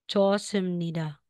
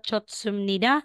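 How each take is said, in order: First: No t sound comes before the s. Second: A t sound comes before the s. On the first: The speaker calls it right. "magiging chosumnida" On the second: The speaker calls it wrong. "hindi po siya chotsumnida"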